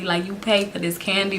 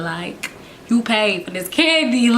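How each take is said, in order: First: Said in the usual way. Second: Slow, stretched-out incredulous retort; drawn-out mock disbelief. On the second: Kid retorting to her aunt about the candy, drawn out and incredulous. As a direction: let each word hang in disbelief.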